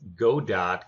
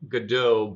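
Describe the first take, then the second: First: The name is said as 'go' plus 'dot'. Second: The name does not end in a 'dot' sound. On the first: It fits a game with dots that you move through. "I am going to pronounce it as Godot because our game has dots in it, and you go" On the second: This is the supposedly proper pronunciation. "I think it's pronounced good Godot"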